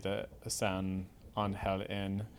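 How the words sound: The name is pronounced the Spanish way. "if you say it properly"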